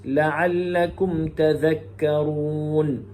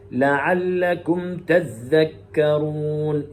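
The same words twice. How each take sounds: First: تذكرون chanted with single dhal, tadhakkarun; slow tajweed chant, تذكرون as tadhakkarun; Hafs reading. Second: تذكرون chanted with doubled dhal, tadhdhakkarun; slow tajweed chant, تذكرون as tadhdhakkarun; Shu'ba reading. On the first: Teacher contrasting Hafs's reading, chanted تذكرون with single dhal. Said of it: "ويقرأ حفص". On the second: Teacher showing Shu'ba's reading, chanted تذكرون with doubled dhal. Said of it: "كلمة تذكرون يقرأ شعبة". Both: Shown as a demonstration.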